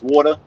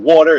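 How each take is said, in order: First: It is said in a Brooklyn accent. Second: It is said in a standard accent. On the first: "Brooklyn is just short" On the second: "It's not water"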